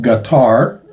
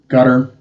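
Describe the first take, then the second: First: The word rhymes with guitar. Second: The word does not rhyme with guitar.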